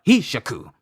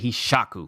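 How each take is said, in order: First: The middle syllable sha is not stressed. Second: The middle syllable sha is strongly stressed. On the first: The speaker calls it wrong. "and not like a strong Hishaku" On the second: The speaker calls it right. "like a strong sha"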